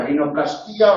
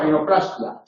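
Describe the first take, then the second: First: "rinoplastía" as rinoplas-TÍ-a; long stressed Í in "rinoplastía". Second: "rinoplastia" as rino-PLAS-tia; "rinoplastia" ending in one short "tia"; stress on PLAS. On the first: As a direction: split the ending of "rinoplastía", hitting the Í. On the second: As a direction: hit PLAS in "rinoplastia", light final tia. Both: Shown as a demonstration. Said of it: "lo mismo".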